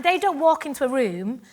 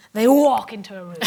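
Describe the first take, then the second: First: Said in the usual way. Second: Walk hit low and loud, dropping; stress on walk. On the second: Shown as a demonstration. Mocking the dancers' grand entrance, stress on walk. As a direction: lean hard on "walk" to show a grand entrance.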